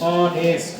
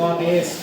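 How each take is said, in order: First: The word begins with a vowel sound. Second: The same.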